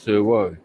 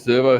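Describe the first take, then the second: First: The v is said the Latin way. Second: The v is said the ordinary English way.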